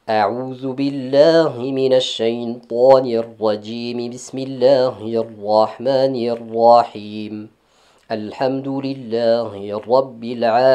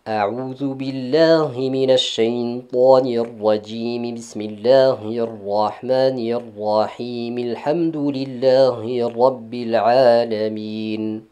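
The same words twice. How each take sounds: First: First two parts linked, then a pause before the third. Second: All three parts run together with no pause. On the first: "l'enchaînement entre l'isti'aza et la basmala, et marquer un arrêt entre la basmala et le premier verset" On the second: "un enchaînement direct entre les trois"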